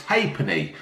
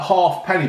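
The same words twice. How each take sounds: First: Halfpenny said as HAYP-nee, the l and f silent; correct pronunciation. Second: Half penny said as two words, HALF then PENNY; wrong pronunciation. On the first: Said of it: "apparently it's halfpenny". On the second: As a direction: say half penny split in two, both parts clear. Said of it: "I was calling it". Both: Shown as a demonstration.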